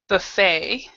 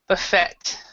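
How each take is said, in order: First: It ends without a T sound, American style. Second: It ends with a T sound, British style.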